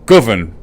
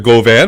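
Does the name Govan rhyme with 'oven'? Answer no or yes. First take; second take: yes; no. First: The name rhymes with 'oven'. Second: The name does not rhyme with 'oven'. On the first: The speaker calls it right. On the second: The speaker calls it wrong.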